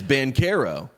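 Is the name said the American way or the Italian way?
Italian. The name is said the Italian way.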